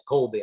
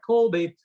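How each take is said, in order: First: Said in the usual way. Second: Higher, louder call of the name Colby; father calling his son, loud and sharp. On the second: Retold or imitated. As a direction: shout Colby across the house. Dad calling out the culprit.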